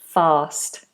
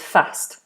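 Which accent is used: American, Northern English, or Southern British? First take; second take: Southern British; Northern English. First: It is said in a Southern British accent. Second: It is said in a Northern English accent. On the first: "standard British English, as in Southern British English, is fast. It's that long vowel again" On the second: "Northern English is fast"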